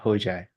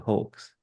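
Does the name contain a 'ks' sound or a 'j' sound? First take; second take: j sound; ks sound. First: The name is said with a 'j' sound. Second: The name is said with a 'ks' sound. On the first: The speaker calls it right. "the X and H makes a J noise" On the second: The speaker calls it wrong. "But I would have said hoax"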